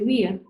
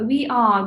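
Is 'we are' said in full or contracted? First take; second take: contracted; full. First: It is shortened to one syllable. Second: It is said as two full words. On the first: "we say" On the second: "Instead of"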